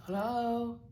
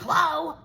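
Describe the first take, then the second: First: Slightly higher, unbothered put-on hello; mild mock hello in his voice; imitating the caller. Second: Loud, high, irritated phone answer; very loud, fed-up hello; annoyed. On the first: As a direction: answer as the caller, much less forceful. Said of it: "And he's like". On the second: Retold or imitated. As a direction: snap it loudly into the phone. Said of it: "this time I'm fucking annoyed".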